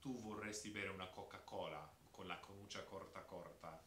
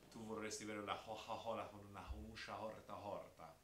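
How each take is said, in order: First: Every C in "Coca-Cola" and "corta" a hard k; crisp k sounds in "canuccia corta"; standard Italian. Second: Florentine Italian, every hard C breathed as h; Tuscan accent. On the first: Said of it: "So the standard phrase is". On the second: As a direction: say it Tuscan, Coca-Cola as hoha-hola. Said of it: "but just in their accent". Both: Shown as a demonstration.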